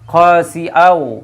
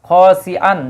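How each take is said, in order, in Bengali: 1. শেষের অনুনাসিক w ধ্বনিতে মিশে যায়। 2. শব্দটি স্পষ্ট n ধ্বনি দিয়ে শেষ হয়। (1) "সংযুক্ত হয়ে যায়" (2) "এই জায়গায় তানউইন আছে"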